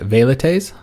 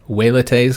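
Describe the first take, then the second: First: The word begins with a V sound. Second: The word begins with a W sound.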